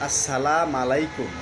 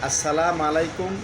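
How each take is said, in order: Both takes have the same delivery.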